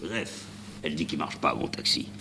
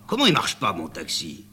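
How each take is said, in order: First: Bien plus bas et doux, ruminé; marmonné pour soi. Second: Montée aiguë, puis retombée sur « mon taxi »; indignation vexée. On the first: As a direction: ronchonner dans sa barbe. Répète pour lui-même, rancunier. (le chauffeur rumine la remarque d'Amanda, voix basse) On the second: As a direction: se vexer qu'on critique son taxi. (le chauffeur s'indigne devant Amanda) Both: Acted.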